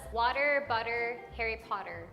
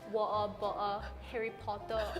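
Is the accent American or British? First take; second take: American; British. First: It is said in an American accent. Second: It is said in a British accent.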